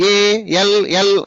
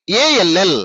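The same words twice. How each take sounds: First: ALL slow, each letter apart; divided letters. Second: ALL run together as one unit; joined letters. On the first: Teacher showing pupils what not to say, ALL slowly divided. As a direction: break ALL up with gaps between letters. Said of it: "అనకూడదు". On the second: Teacher modelling spelling for pupils, ALL joined without breaks. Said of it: "ఎలా పలుకుతున్నాను అనేది నేర్చుకోండి". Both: Shown as a demonstration.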